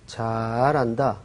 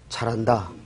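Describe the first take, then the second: First: It is said with a sarcastic, mocking tone. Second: It is said with a sincere, approving tone. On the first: The person is actually doing badly. "비꼬는 거죠" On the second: The person really is doing well. "잘한다는 정말 잘한다고"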